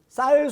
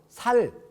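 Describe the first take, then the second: First: The word starts with a tense s sound. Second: The word starts with a plain s sound. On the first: This is the standard pronunciation. The speaker calls it right. "쌀 발음을 해보라 그러면" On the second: The speaker comes from a region that cannot make the tense sound. The speaker calls it wrong. "쌀 소리를 못하고 살"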